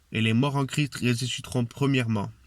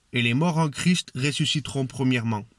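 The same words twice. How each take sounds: No difference in how they are said.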